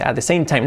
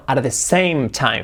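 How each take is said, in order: First: "same" ending in N; "same" with the M turned to N; imitated mistake. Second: "same" with lips closed on M; slow model of "same time"; corrected M. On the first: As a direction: copy "same time" as "sane time". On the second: Shown as a demonstration. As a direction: hold the M in "same". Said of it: "la M como una N".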